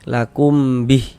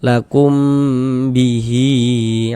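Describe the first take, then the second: First: The word ends abruptly on a silent h. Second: The final vowel is lengthened into the next word. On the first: The reciter stops at this word. "kalau kita wakofkan gugur tanda panjangnya" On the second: The reciter continues without stopping. "kalau kita wasal kan baru berlaku tanda panjangnya"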